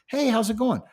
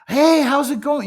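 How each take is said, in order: First: It is said slightly higher and livelier than normal. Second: It is said with over-the-top, crazy energy.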